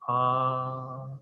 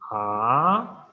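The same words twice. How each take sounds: First: The pitch stays high and level. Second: The pitch rises from mid to high. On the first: "high level tone" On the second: "So rising tone"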